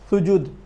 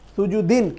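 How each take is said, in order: First: The word ends on a bare stopped 'd'. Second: The word ends with a full '-din' syllable. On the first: The reader stops at this word. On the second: The word is joined to what follows.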